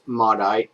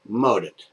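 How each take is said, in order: First: The name is said with an English pronunciation. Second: The name is said with a French Canadian pronunciation. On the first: "if it were me, I would say that's Modite" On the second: "he said Modit in his cute little French Canadian accent, so that's the way I'm going to pronounce it"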